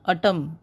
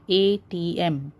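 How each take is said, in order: First: ATM run together as "atom"; read as a word. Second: "A T M" said letter by letter; name each letter in "A T M"; spelled out. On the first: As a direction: say "atom" as one word, not letters. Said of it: "You don't pronounce it as". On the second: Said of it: "say the w-, words or the letters like". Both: Shown as a demonstration.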